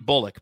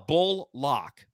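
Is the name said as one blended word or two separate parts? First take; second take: one word; two parts. First: It is said as one smooth, blended word. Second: It is split into two parts, bull and lock. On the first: The speaker calls it right. "It should just be Bullock" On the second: The speaker calls it wrong. "he says like another L, bull lock"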